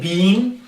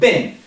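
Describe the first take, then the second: First: The word is not said like 'bin'. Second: The word is said like 'bin'. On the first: The speaker calls it wrong. "we don't say been" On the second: The speaker calls it right. "So it is like B I N"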